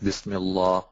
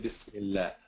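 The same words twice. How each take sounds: First: The L sound is heavy and thick. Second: The L sound is light and thin. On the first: The speaker calls it wrong. "It cannot be a, you know, thick lam like Bismillah" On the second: The speaker calls it right. "You have to say Bismillah with this uh, thin lam"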